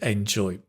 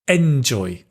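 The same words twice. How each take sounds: First: The stress falls on the expected syllable. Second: The stress falls on an unexpected syllable. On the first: The speaker calls it right. "instead of" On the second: The speaker calls it wrong. "word stress is not always correct"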